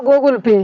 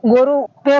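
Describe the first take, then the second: First: "Google पे" with the final l sounded; "Google पे" as goo-gul-pay, not goru-pay; corrected Google Pay. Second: "गोरू पे" with a "ru" ending in place of "gal"; mispronounced Google Pay. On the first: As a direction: say "Google पे" properly, correcting a slip. Corrects own slip of tongue. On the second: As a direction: say Google Pay wrongly as "goru-pe". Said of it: "गोरू पे निकल गए मुँह से". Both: Acted.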